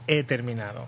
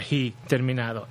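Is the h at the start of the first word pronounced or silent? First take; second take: silent; pronounced. First: The h at the start is silent. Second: The h at the start is pronounced. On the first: The speaker calls it right. "That H right there, don't read it" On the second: The speaker calls it wrong. "Don't say he or he terminado"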